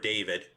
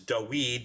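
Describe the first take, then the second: First: The middle consonant is a v sound. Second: The middle consonant is a w sound. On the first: The speaker calls it right. "not David for David" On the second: The speaker calls it wrong. "if it's a wow, then it's Dawid"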